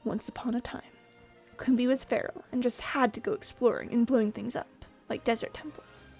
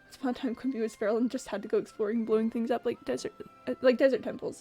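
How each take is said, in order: First: It is read in a dramatic storytelling way. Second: It is read in a plain, casual way.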